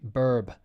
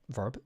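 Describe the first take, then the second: First: The word starts with a B sound. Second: The word starts with a V sound.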